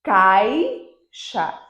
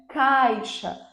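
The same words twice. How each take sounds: First: "caixa" split, long CAI, pause, then xa; syllable-by-syllable demo. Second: "Caixa" joined up, falling from stressed CAI; stressed cai gliding down straight into xa in "Caixa"; whole-word demo. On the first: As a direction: break "caixa" after a loud, drawn-out first syllable. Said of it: "agora eu comecei". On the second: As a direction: say "Caixa" as one word, no break. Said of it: "Vocês conseguem perceber?". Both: Shown as a demonstration.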